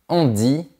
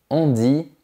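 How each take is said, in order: The two takes are said the same way.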